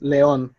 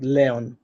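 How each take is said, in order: First: León said le-ÓN, weight on the ending; stress on last syllable. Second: León wrongly said LE-on, weight on the first syllable; misplaced stress. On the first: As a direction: put the accent of "león" on ÓN. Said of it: "you have to pronounce it". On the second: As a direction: demonstrate "león" stressed on LE instead of ÓN. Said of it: "not león". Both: Shown as a demonstration.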